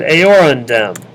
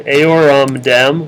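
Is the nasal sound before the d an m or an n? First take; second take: n; m. First: An n sound comes before the d. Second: An m sound comes before the d. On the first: The speaker calls it right. "which is only slightly less hard to say" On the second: The speaker calls it wrong. "which is hard to say"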